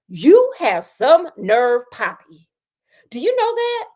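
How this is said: It is said in an angry, indignant tone.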